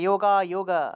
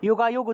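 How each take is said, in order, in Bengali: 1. শব্দটি স্বরধ্বনিতে শেষ হয়। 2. শব্দটি স্বরহীন ব্যঞ্জনে শেষ হয়। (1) "হসন্ত না থাকলে উচ্চারণ কি হবে" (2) "হসন্ত যদি থাকতো তাহলে উচ্চারণ হতো যোগাযোগ"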